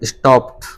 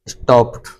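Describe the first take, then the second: No difference in how they are said.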